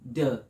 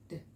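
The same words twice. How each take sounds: First: The sound is said loudly, with a voiced vowel. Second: The sound is said very quietly, with no vowel. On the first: The speaker calls it wrong. "D does not say D" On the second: The speaker calls it right. "that's how quiet it is"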